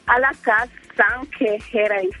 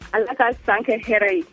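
First: The phrase is said slowly, broken into parts. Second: The phrase is said quickly in one run. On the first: "Il faut parler lentement" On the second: "Il faut pas dire ça rapide"

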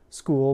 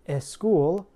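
First: It starts directly with the S sound. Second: It starts with an added vowel before S.

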